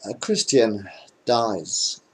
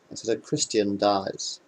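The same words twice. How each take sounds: First: Slow deadpan setup. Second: Said in the usual way. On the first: Shown as a demonstration.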